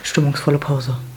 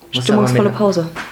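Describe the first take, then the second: First: The voice is pushed down to a deeper pitch. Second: The voice is at its normal, higher pitch.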